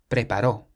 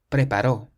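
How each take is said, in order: No difference in how they are said.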